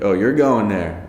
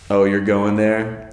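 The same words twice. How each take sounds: First: The question is asked in a distinct local way. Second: The question is asked in a plain, ordinary way. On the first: "they'll be like" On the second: "instead of saying like"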